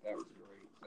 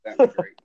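First: Breathy whispered echo. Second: Loud, high burst of excitement; excited shout. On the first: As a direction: drop to a whisper. Echoed softly after the shout. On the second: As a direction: belt it out with delight. Sudden loud excited exclaim. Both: Real, not acted.

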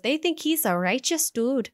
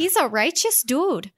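First: Put-on Minnesota accent. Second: Put-on Minnesota accent, slow and high; a slow Midwestern drawl on the line. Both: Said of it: "Midwestern slash Minnesota, Wisconsin accent".

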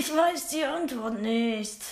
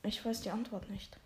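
First: Slow, strangely voiced answer; odd put-on voice. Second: Much softer, mumbled answer; very quiet. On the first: Shy pupil answering the teacher in a strange voice. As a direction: say it slowly in a weird voice. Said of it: "Warum redest du denn so komisch?". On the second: Acted. Shy pupil mumbling the answer to the teacher. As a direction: keep it tiny and soft. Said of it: "Wie bitte?".

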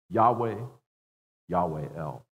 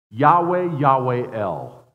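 First: Said in the usual way. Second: Loud, slow ringing proclamation; proclaimed name. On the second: Shown as a demonstration. Preacher proclaims God's name to congregation, loudly. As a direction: call the name out like a herald. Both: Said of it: "here's his designation".

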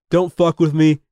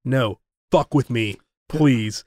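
First: Retold tough-guy threat at normal pitch; lightly acted bluster, pushed a little; mock power-trip warning; would-be badass warning. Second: Low, slow retold dare; mock tough guard calling the bluff; badass comeback. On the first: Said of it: "trying to be a badass to this guard". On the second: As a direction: drop low and take your time, daring him.

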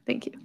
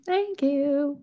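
First: Breathy laughing whisper; whispered thanks. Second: Higher, proud thank you. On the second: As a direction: sing it out a bit higher. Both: Real, not acted.

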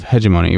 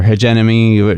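First: Hegemony with stress on the first syllable, HEJ-uh-moh-nee; first pronunciation. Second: Hegemony with stress on the second syllable, heh-JEM-uh-nee; alternative pronunciation. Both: Shown as a demonstration. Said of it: "depending on how you pronounce it".

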